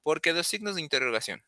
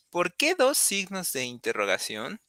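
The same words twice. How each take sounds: First: "¿Por qué dos signos de interrogación?" said quickly as a statement, pitch falling at the end; statement intonation, fast, falling at the end; flat statement tune. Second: "¿Por qué dos signos de interrogación?" asked as a question, pitch rising at the end; rising question intonation. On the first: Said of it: "if this were a regular sentence without the question marks". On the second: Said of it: "As you can hear, the intonation is different". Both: Shown as a demonstration.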